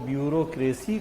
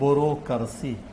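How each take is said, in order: First: It is said in the standard English-like way. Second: It is said as a rural Rajasthani villager says it.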